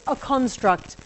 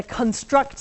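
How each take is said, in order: First: A CONstruct as a noun; stress on first syllable. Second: ConSTRUCT as a verb; stress on second syllable. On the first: Lecturer uses the noun for students, construct stressed on the first syllable. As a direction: say a construct with CON strong, struct weak. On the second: Lecturer uses the verb for students, construct stressed on the second syllable. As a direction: say construct with weak con, strong STRUCT. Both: Shown as a demonstration. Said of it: "we change the, the, the emphasis".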